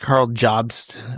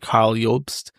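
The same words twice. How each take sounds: First: The name is pronounced the English way. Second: The name is pronounced the German way. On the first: This is the pronunciation the man himself prefers. "he prefers" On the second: This is the name's original pronunciation. "his name is German and the pronunciation is actually"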